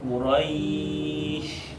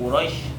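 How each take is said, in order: First: The 'ai' vowel is drawn out long. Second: The 'ai' vowel is cut short. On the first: The speaker calls it right. "panjangan linnya dulu" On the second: The speaker calls it wrong. "Tidak Quraisy"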